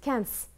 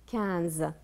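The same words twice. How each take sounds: First: The middle consonant is a hissing S sound. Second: The middle consonant is a buzzing Z sound. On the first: The speaker calls it wrong. "Si on met le S, on va dire elle coûte quinze" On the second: The speaker calls it right. "Non, c'est quinze"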